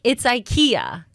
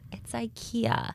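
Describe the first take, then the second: First: It is said in a proud, confident tone. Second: It is said in an embarrassed, apologetic tone.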